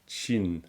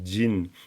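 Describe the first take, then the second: First: The word begins with a voiceless 'ch' sound. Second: The word begins with a voiced 'j' sound. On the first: The speaker calls it wrong. "et non pas Chin" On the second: The speaker calls it right. "Ça se prononce vraiment Jin"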